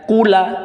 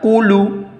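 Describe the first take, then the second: First: The word ends with an added a vowel. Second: The word ends with an added u vowel. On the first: "tidak dibaca kula" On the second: "tidak dibaca kulu"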